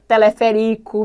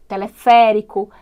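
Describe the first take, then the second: First: "teleférico" stressed on RI, next to last; misplaced stress. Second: "teleférico" stressed on FÉ; slow "teleférico", punching FÉ; correct stress. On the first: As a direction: mispronounce "teleférico" as te-le-fe-RÍ-co. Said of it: "não vai dar certo". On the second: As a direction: model "teleférico" with a strong FÉ. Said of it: "é fundamental que esses acentos apareçam". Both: Shown as a demonstration.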